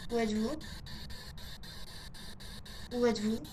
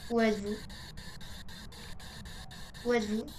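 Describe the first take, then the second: No difference in how they are said.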